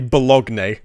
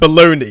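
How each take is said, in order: First: It is pronounced letter by letter as spelled. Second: It is pronounced the usual, standard way. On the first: The speaker calls it wrong. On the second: The speaker calls it right.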